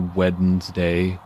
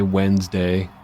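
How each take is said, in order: First: Every letter of the word is pronounced. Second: The word is said in its usual shortened form. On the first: The speaker calls it wrong. "People don't say Wednesday" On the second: The speaker calls it right. "They say Wednesday"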